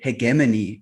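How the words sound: The word is said in a British way.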